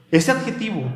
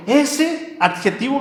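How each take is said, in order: First: Said in the usual way. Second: Ese drawn out high and slow; emphasis on ese. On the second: Shown as a demonstration. Preacher to congregation, ese stretched high and slow. Preacher stressing a sacred word.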